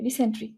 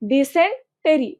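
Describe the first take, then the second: First: The ending is squeezed into 'sen-tree'. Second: The ending is said fully as 'sen-te-ree'. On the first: The speaker calls it wrong. "এখানে সেন্ট্রি উচ্চারণ করবে না" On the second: The speaker calls it right. "টেরি উচ্চারণ করবা"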